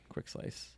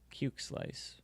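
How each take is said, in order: First: The first word sounds like 'quick'. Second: The first word sounds like 'cuke'. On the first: "however you want to pronounce it" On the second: "I was intentionally saying Cuke Slice for a laugh"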